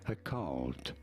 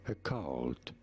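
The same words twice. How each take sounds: First: The first vowel is reduced, American-style. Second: The first vowel is reduced, American-style.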